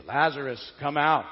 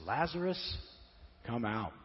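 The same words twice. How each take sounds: First: Calling loudly into the tomb; a loud, commanding call to a dead friend. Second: Said in the usual way. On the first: Shown as a demonstration. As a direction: call him out loud and strong. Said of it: "I didn't say it very loud, but you get the idea". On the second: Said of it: "in a loud voice. I didn't say it very loud".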